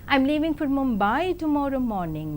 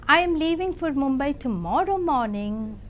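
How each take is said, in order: First: The word Mumbai carries the main stress. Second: The word tomorrow carries the main stress. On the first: It is this city, not another one. "means I am leaving for Mumbai and not to Delhi" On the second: It is tomorrow, not today. "means I am leaving for Mumbai tomorrow and not today"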